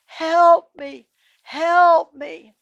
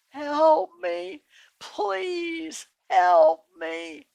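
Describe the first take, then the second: First: High, loud holler; hollering for help. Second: High, very slow, strained plea; a last exhausted call, drawn out; weak cry for help. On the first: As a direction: call out desperately to the passer-by. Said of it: "he hollers again". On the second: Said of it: "And so he cries out". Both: A narrator's reading.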